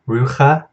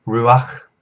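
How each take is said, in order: First: Rucha with the ch sound before a final a, ROO-kha; wrong pronunciation. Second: Ruach with the a slipped in before the final ch, roo-AKH; correct pronunciation. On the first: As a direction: say rucha wrongly, vowel after the ch. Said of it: "So it's not rucha". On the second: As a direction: say ruach with the vowel before the throaty ch. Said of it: "furtive patak ... pronounced before this chet". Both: Shown as a demonstration.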